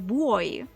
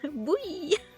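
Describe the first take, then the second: First: It is said like the word boy. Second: It is said like boo-ee, without an O. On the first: The speaker calls it wrong. "in my head, it has always been boy" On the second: The speaker calls it right. "As if there's no O in it"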